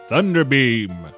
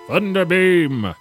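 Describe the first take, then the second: First: It is said in a plain, flat way. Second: It is said loudly, like an exclamation.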